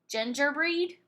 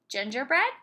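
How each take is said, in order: First: The last syllable has a long E vowel. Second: The last syllable has a short E vowel. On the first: The speaker calls it wrong. "Let's try the long E sound first" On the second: The speaker calls it right. "Let's try the short E sound"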